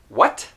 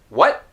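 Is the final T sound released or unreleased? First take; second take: released; unreleased. First: The final T is released with air. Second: The final T is held, not released. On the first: The speaker calls it wrong. "So instead of saying" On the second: The speaker calls it right. "leave your tongue up without releasing any air"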